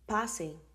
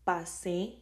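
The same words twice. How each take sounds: First: The stress is on the first syllable. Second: The stress is on the last syllable. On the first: It invites someone to come in. "Go, come, or come in" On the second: It reports passing in the past. "I passed"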